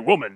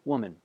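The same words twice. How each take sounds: First: The word sounds curt and dismissive. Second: The word sounds warm and gentle. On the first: The speaker looks down on the woman. The speaker calls it wrong. "not like that" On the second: The speaker shows affection and respect. The speaker calls it right. "It would have been a term of endearment"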